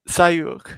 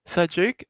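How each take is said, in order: First: The name is said without any J sound. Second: The name is said with a clear J sound. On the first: Other people say it this way because they cannot make the sound. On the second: This is the name as the speaker gives it.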